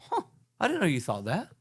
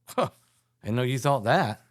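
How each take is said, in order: First: It sounds curious and pleasantly surprised. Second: It sounds disapproving and put off.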